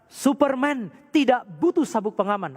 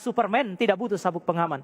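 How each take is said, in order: First: It is said loudest of all. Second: It is said louder than before.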